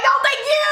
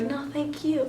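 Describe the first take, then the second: First: High-pitched squealed fangirl thanks; ecstatic inner scream. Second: Soft, modest little reply; restrained thanks. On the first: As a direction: squeal your gratitude at top pitch. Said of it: "But in my heart". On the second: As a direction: keep it small and polite, much softer. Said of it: "I didn't say it like that". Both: Retold or imitated.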